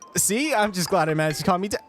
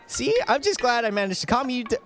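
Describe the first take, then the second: First: It is said in the narrator's own voice. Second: It is said in Jun's character voice.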